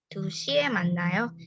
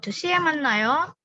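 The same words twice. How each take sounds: First: The tone is flat and unexcited. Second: The tone is lively and enthusiastic. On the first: It states when the meeting happens. "Kalau nadanya nggak antusias" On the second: It invites the other person to meet then. "ayo ketemu jam dua"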